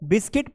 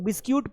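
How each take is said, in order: First: The word ends with a short 'kit' sound. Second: The word ends with a 'kyoot' sound. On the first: The speaker calls it right. "इसको बिस्किट पढ़ना है" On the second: The speaker calls it wrong. "कुछ लोग बिस्क्यूट पढ़ते हैं, बिस्क्यूट नहीं होता है"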